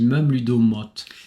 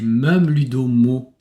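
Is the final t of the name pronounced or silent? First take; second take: pronounced; silent. First: The name ends with a clearly pronounced t sound. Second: The name ends in an open vowel, final t silent. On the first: "tu dis même ludomote" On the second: "C'est même ludomo comme un mot"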